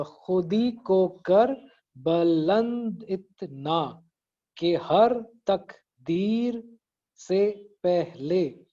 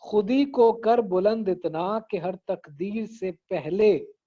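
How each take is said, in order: First: Very slow, each syllable of खुदी को कर बुलंद इतना separated. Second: Slow connected recital of the first line; खुदी को कर बुलंद इतना flowing as whole words, deliberately; verse recitation. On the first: Teacher counting syllables in the first line, syllable by syllable. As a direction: break every word into spaced beats, तक ... दीर. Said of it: "इसमें अभी जरा गिनते हैं". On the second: Teacher presenting the first line before counting, verse recitation. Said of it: "पहला मिसरा है". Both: Shown as a demonstration.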